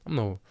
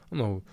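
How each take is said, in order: Both takes have the same delivery.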